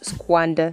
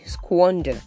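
First: The first vowel sounds like the vowel in 'cat'. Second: The first vowel sounds like the vowel in 'hot'. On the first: The speaker calls it wrong. "People don't squander their money or their time" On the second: The speaker calls it right. "They squander"

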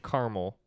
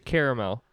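First: The word is said with two syllables. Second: The word is said with three syllables. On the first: This is how the others say it. "you guys say caramel" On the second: This is the speaker's own way of saying it. "I say caramel, which is a 3 syllables"

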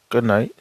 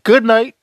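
First: It is said very quietly and low. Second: It is said loudly and firmly. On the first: The speaker is timid and holds back his voice. The speaker calls it wrong. "All low. He was saying all low" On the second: The speaker is confident and uses his voice. The speaker calls it right. "that's what I'm talking about. Stand on it. Say it so people can hear you"

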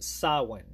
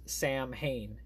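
First: The word is not sounded out letter by letter. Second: The word is sounded out letter by letter. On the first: The speaker calls it right. "it's pronounced Samhain" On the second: The speaker calls it wrong. "not pronounced Samhain, how it's spelled"

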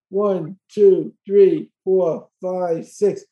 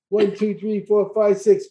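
First: It is counted a little faster. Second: It is counted as fast as possible.

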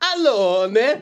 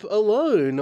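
First: It is said in a put-on Italian accent. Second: It is said in the speaker's ordinary accent.

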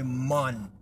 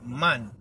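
First: The vowel is rounded, like 'mon'. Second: The vowel is open and front, like 'man'. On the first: "That's M-O-N" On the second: "That M-A-N"

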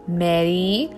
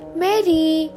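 First: It is said in an angry, scolding tone. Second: It is said in a happy, warm tone.

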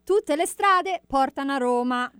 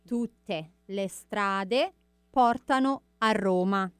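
First: It is said at normal speed. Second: It is said slowly.

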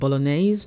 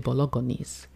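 First: The G sound is left silent. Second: The G sound is clearly pronounced. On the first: This is the usual way to say it. The speaker calls it right. "He can't make so bolognese" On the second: This is how a child mispronounces it. The speaker calls it wrong. "He can't make the G silent. He'll say bolognese"

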